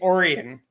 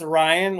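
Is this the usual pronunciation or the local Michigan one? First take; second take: local Michigan; usual. First: It is said the local Michigan way. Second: It is said the usual way, as the star name. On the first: This is how locals say the township name. "but we say it Orion here" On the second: This is how most people say it. "It's normally pronounced Orion, like it's in Orion's belt"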